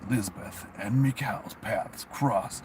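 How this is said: It is read in a dramatic movie-trailer voice. The speaker calls it right.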